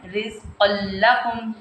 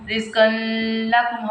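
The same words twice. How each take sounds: First: "रिज़्क़ल्लकुम" with no n, straight into a double l; tanween merged into lam. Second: "रिज़्क़ल्लकुम" said as rizqan-lakum, with a held n; unmerged tanween. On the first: Teacher showing the correct reading, doubled l in "रिज़्क़ल्लकुम". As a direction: skip the n, press the l in "रिज़्क़ल्लकुम". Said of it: "पढ़ना है हमने". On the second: Teacher showing the reading to avoid, n sounded inside "रिज़्क़ल्लकुम". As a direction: sound a long n before the l in "रिज़्क़ल्लकुम". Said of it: "हमने नहीं पढ़ना". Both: Shown as a demonstration.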